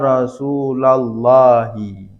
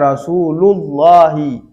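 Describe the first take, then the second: First: The word is read with the nasab ending. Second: The word is read without the nasab ending. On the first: The word is being called after the particle ya. "Rasula dibaca nasab" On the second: No calling particle comes before it. "kalau enggak ada ya-nya bacanya Rasulullahi"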